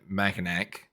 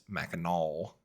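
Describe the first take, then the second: First: Mackinac said MACK-in-ack, ending in a hard k; mispronounced Mackinac. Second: Mackinac said MACK-in-aw, with a silent final c; corrected pronunciation. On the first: Host showing an old mistake, Mackinac ending in "ack". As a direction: sound out the final c of Mackinac as "ack". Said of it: "I was pronouncing it Mackinac, but I was corrected". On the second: Host giving the corrected name, Mackinac ending in "aw". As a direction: end Mackinac on an open "aw", no k sound. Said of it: "corrected on my enunciation and pronunciation". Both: Shown as a demonstration.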